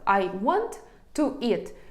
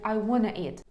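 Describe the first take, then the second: First: Each word is said clearly and separately. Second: The words run together as "wanna". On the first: "Ось ми чітко почули усі слова" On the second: "щоб звучати природньо і скоріше носії скажуть"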